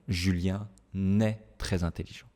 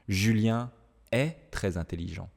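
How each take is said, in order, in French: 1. Un son n lie Julien à est. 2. Julien et est ne sont pas liés par un son n.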